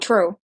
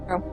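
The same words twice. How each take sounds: First: It is said loudly. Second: It is said at normal volume.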